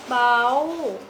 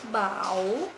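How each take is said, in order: First: The syllable is said with a high tone. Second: The syllable is said with a rising tone. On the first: "Dengan nada tinggi" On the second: "Dan dengan nada bangkit"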